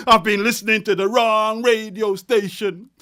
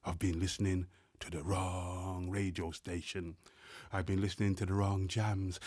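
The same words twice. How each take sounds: First: Loud refrain. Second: Hushed refrain. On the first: Refrain swelling near the climax. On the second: Repeated refrain, hushed this time. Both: Acted.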